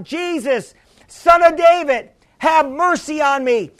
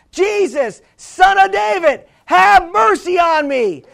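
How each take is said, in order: First: Mild imitated plea, close to usual voice; retold crying out. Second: Imitated insistent plea, raised pitch; louder crying out. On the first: Blind beggar first appeals to Jesus, a mildly voiced cry. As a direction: call out for mercy, held back in volume. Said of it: "started doing was crying out". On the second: Blind beggar refuses to be silenced, crying out more insistently. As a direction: cry it out higher and more forcefully. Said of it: "but he said louder".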